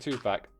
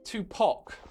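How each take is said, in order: First: The second syllable has an 'a' vowel, like 'pack'. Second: The second syllable has an 'ah' vowel, like 'pock'. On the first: The speaker calls it right. "That's just how you say it" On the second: The speaker calls it wrong. "it's pock"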